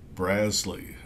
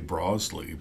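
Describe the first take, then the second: First: The first syllable rhymes with jazz. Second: The first syllable does not rhyme with jazz. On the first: The speaker calls it right. "it is Braz like Jazz Lee" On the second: The speaker calls it wrong. "I have to be careful not to say Brosley"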